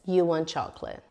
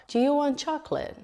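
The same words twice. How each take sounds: First: "chocolate" drops down at the end; falling statement intonation. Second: Whole question pitched high, quick; question intonation. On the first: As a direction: state it, letting the voice fall on "chocolate". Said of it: "intonation usually goes down at the end". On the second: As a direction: lift the voice right up on "Do you want chocolate". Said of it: "my intonation goes up". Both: Shown as a demonstration.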